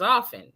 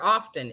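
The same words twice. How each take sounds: First: The T sound is left silent. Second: The T sound is pronounced in the middle. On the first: The speaker calls it right. "The T was silent" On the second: The speaker calls it wrong. "it was never often"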